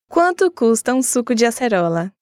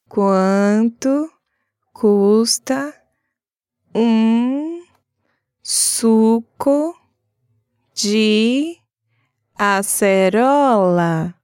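First: It is said fast. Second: It is said slowly.

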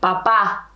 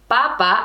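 First: The stress is on the last syllable. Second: The stress is on the first syllable. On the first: The speaker calls it right. "I want you to say papa" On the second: The speaker calls it wrong. "I don't want you to say papa"

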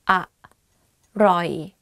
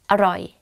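First: The word is said slowly. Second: The word is said quickly.

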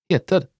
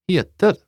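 The two takes are said the same way.

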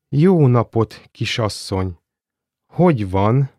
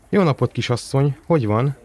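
First: It is said slowly. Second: It is said at normal speed.

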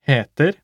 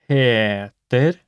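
First: The word is said fast. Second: The word is said slowly.

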